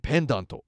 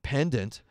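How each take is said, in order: First: It is said with a thick Japanese accent. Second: It is said with an English accent. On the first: Listeners in Japan would understand it. The speaker calls it right. "embrace the real thickness of the accent" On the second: Listeners in Japan would not understand it. The speaker calls it wrong. "If you were to just pronounce it pendant, they wouldn't get it"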